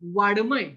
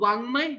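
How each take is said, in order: First: The consonant before m is a plain d. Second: The consonant before m is a nasal ng. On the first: The speaker calls it wrong. "हा वाङ्मय शब्द काही लोक कसे म्हणतात माहिती आहे? ... हा ड हा ड तिथे ठेवतात" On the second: The speaker calls it right. "वाङ्मय बरोबर आहे"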